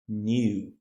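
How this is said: It is said with a British accent. "British English is new"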